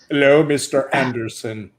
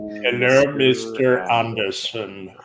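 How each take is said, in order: First: It is said at normal speed. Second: It is said slowly, as if mouth full.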